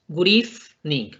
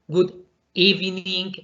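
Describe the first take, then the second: First: The v in evening sounds like an f. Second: The v in evening does not sound like f. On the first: The speaker calls it right. "la pronunciación perfecta en este caso es good evening, como una F" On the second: The speaker calls it wrong. "lo dicen como good evening, evening, lo cual está mal"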